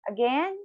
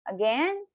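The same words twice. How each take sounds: No difference in how they are said.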